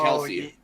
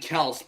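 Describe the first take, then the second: First: The name ends on an ee sound. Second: The name ends on an s sound. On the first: The speaker calls it wrong. "everyone says it Kelsey" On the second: The speaker calls it right. "it's actually Kels"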